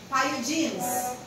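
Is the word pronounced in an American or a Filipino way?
American. It is said with an American pronunciation. "Sa mga Americans, it's called pyogenes"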